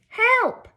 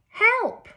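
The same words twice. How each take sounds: The two takes are said the same way.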